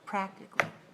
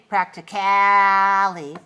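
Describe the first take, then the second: First: The vowel before the ending is dropped entirely. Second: The vowel before the ending is long and full. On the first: The speaker calls it right. "just get rid of it altogether" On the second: The speaker calls it wrong. "don't say practically. Don't make it long"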